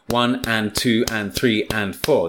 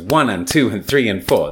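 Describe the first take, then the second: First: Every syllable gets equal time, said slowly. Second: The added words are squeezed in, said quickly. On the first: Each syllable takes the same time, as in syllable-timed languages. "That's 7 seconds" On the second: Each stress takes the same time, as in stress-timed languages. "That's 4 seconds"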